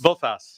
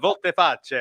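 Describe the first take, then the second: First: The name is said in a plain English way. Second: The name is said in an Italian-sounding way.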